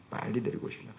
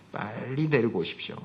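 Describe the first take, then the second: First: Whispered, stress on 빨리; whispered plea. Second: Said in the usual way. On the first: Shown as a demonstration. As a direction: breathe 빨리 데리고 오십시오 as a hushed urging. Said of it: "repeated plea whispered". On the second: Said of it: "repeats the plea, second softer".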